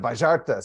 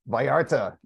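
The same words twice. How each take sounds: First: It is said with an Argentine accent. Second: It is said with a Californian accent.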